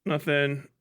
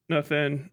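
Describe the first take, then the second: No difference in how they are said.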